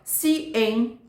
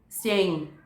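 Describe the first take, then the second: First: A tiny break separates the two vowels. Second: The two vowels merge into one syllable. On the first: The speaker calls it right. "ele tem uma micropausa aqui" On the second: The speaker calls it wrong. "virar uma coisa só"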